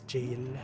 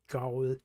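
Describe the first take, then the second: First: The word begins with a j sound. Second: The word begins with a hard g sound. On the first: The speaker calls it right. "Apparently, it's jail" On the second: The speaker calls it wrong. "I thought it was pronounced as Gaul"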